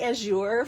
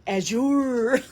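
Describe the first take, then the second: First: The word is said plainly, without flourish. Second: The word is said with an exaggerated, dramatic flourish.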